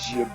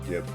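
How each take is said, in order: First: The word starts with a J sound. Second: The word starts with a hard G sound. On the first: The speaker calls it wrong. "it just doesn't sound right pronouncing it jib. It's like, oh, jib. Like the the jib of your boat" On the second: The speaker calls it right. "I just like calling it gib"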